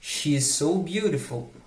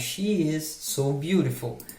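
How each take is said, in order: First: She and is merge into one syllable. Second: She and is are said as two words.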